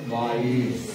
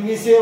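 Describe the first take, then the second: First: It is read with a long ai and s. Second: It is read with a short i and an s. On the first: The speaker calls it right. "ते M I सी आहे, माईस" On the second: The speaker calls it wrong. "कोणी मिसे वाचणार"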